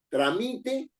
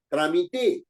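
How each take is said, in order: First: The stress is on the middle syllable. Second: The stress is on the last syllable. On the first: "tiene la mayor fuerza de voz en mí, es una palabra grave" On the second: "tiene la mayor fuerza de voz en te, es una palabra aguda"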